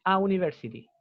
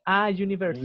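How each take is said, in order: First: "a university" with plain "oo" after "a"; vowel U onset. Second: "a university" with a buzzed y after "a"; consonant Y onset. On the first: Teacher showing what one doesn't say, "a university" with pure oo. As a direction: say "a university" as "a ooniversity". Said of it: "uno no dice". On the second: Teacher showing what one says, "a university" with consonant y. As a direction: say "a university" as "a jooniversity". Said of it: "Entonces uno dice". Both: Shown as a demonstration.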